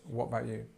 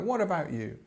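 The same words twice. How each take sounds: First: Said quickly with the first vowel of about dropped. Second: Said slowly with the first vowel of about kept. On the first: "it probably probably gets pushed to this" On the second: "in a longer and and, and more slow way"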